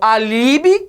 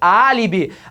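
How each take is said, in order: First: The stress is on the middle syllable. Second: The stress is on the first syllable. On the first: The speaker calls it wrong. "eu falo alibi" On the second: The speaker calls it right. "A sílaba forte é a terceira de trás para frente"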